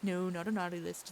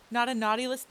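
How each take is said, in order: First: Said in the usual way. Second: Laughing denial. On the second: Real, not acted. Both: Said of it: "and yes".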